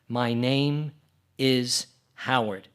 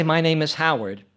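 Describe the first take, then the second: First: "My name", a pause, then "is Howard" said slowly; spaced with pauses. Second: Said in the usual way. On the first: Shown as a demonstration. A Morse teacher demonstrates spacing to beginners, slow and gapped. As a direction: leave a clear gap after "name". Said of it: "or I could talk like this". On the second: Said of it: "I could talk like this and say".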